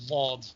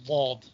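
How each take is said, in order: Both takes have the same delivery.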